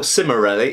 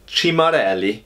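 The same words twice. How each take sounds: First: The name is said with an English accent. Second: The name is said with an Italian accent. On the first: "if you're English" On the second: "in Italian"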